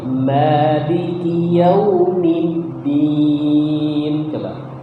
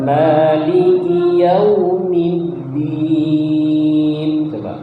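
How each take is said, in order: The two takes are said the same way.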